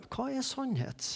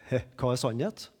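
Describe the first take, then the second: First: Higher, much softer, sincerely wondering; searching. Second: Scoffing ironic question, lower and softer. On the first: Pilatus sincerely asking Jesus, searching and soft. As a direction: ask it like a man who truly wants to know. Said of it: "om han er litt søkende". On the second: Pilatus mocking Jesus's talk of truth, ironic scoff. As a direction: toss it off with a dismissive "Hæ". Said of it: "om Pilatus er ironisk". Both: Shown as a demonstration.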